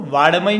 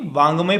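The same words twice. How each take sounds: First: वाडमय with a plain ड sound, marked as the mistake; wrong reading. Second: वांगमय with a clear nasal ङ before ग; correct reading. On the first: Teacher showing students the wrong reading, वाडमय with ड. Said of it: "इसको वाडमय नहीं पढ़ेंगे". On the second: Teacher showing students the correct reading, वांगमय with nasal ङ. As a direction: say वांगमय with the nasal ङ sound, the right way. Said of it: "वांगमय पढ़ेंगे". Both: Shown as a demonstration.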